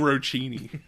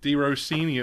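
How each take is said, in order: First: The surname is said in an odd, made-up way. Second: The surname is said in its usual natural way. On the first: The speaker calls it wrong. "I've been saying it wrong this whole time" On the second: The speaker calls it right. "You got it right"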